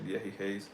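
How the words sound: The s sounds are breathy, like an h. "the S's they say them like uh like the English H"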